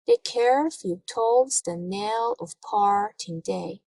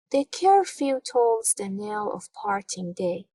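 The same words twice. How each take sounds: First: Slow, measured beat stressing "cur", "tolls", "knell", "par", "day"; read in iambic rhythm. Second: Said in the usual way. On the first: Shown as a demonstration. Teacher reads a poem line to show its rhythm, measured iambic beat. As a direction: lean on every second syllable of "The curfew tolls the knell of parting day", slowly. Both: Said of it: "I read it in rhythm".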